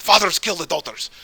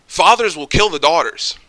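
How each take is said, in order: First: Higher-pitched imitated Jordanian accent; Jordanian Arab accent. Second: Said in the usual way. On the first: Quoting an Arab friend from Jordan, in his Jordanian accent. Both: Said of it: "Well, in his accent".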